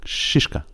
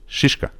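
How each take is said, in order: Both takes have the same delivery.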